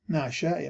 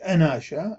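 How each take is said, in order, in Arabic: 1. تبدأ الكلمة مباشرة بصوت النون. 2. تبدأ الكلمة بحرف مد زائد. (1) "نقرأها ناشا" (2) "ما لا نقول"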